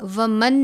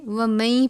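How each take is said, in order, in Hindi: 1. 'न' का उच्चारण अगले शब्द से पहले साफ़ होता है। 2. 'न' गुन्ने वाली 'य' की आवाज़ में मिल जाता है। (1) "इसको हम वमन नहीं पढ़ेंगे" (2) "बल्कि वमई पढ़ेंगे, और वो भी गुन्ना करके"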